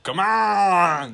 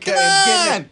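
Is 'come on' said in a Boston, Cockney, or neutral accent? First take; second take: Boston; neutral. First: It is said in a deeper Boston accent. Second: It is said in a plain, neutral accent. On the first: "It's Boston, ... It's like deeper" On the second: "instead of like come on"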